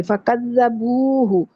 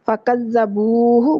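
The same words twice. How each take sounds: First: فَكَذَّبُوهُ slow, ending on a clear هُ; correct pronunciation. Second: فَكَذَّبُوهُ slow, rising on the final هُ; correct pronunciation. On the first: Teacher correcting فَكَذَّبُوا to فَكَذَّبُوهُ, slowly. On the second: Teacher repeating the corrected word for the class, slowly. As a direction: stretch فَكَذَّبُوهُ gently, finishing with هُ. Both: Shown as a demonstration. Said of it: "فَكَذَّبُوا نہیں بولنا".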